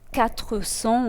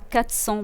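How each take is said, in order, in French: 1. Le groupe consonantique est prononcé en entier. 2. Le groupe consonantique est réduit et simplifié. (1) "au lieu de" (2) "simplifications de groupes consonantiques"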